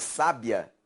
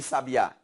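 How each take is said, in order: First: "sábia" stressed on SÁ, the first syllable. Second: "sabiá" stressed on the final Á; stress on last syllable. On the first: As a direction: say "sábia" as SÁ-bia, ending unstressed. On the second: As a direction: say "sabiá" as sa-bi-Á, landing on the end. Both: Shown as a demonstration. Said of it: "É a sílaba tônica".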